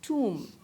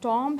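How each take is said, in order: First: It has an 'oo' vowel and no b. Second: It has an 'aw' vowel and a sounded b. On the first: The speaker calls it right. "बल्कि it is pronounced as टूम" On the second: The speaker calls it wrong. "ये ना टॉम्ब है"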